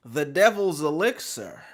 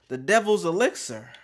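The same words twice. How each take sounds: The two takes are said the same way.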